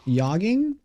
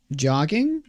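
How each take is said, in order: First: "Jogging" said as "yogging", as a question; Swedish J-as-Y. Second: Said in the usual way. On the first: Shown as a demonstration. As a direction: turn the J of "Jogging" into a Y. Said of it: "He pronounces J's like Y's".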